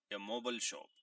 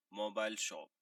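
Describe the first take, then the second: First: موبل with a short "bel", as in "mo-bel"; American pronunciation. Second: موبائل with a long "ai", as in "mo-bail"; British pronunciation. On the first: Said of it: "Americans اس کو موبل پڑھتے ہیں". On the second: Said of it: "Britishers اس کو موبائل". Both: Shown as a demonstration.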